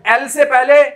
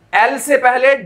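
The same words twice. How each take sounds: The two takes are said the same way.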